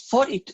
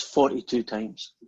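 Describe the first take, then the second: First: "Forty-two?" jumps much higher in disbelief; can't believe the number; retold shocked squeak; astonished. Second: Said in the usual way. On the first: Saint Peter astonished at the count.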